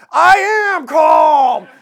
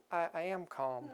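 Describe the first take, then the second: First: Much higher and louder, slow exploding yell; furious shout. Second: Much softer, tight forced calm with a laugh; strained calm. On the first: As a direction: finally snap and bellow "calm". Rage is starting to come out. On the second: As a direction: swallow the anger, say "calm" gently. Passenger insists he is calm. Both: Retold or imitated.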